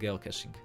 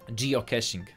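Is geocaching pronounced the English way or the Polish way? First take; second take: Polish; English. First: The word is pronounced the Polish way. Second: The word is pronounced the English way. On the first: This is the pronunciation that caught on locally. "u nas się utarło" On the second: This is the correct pronunciation. "Poprawna wymowa, I guess"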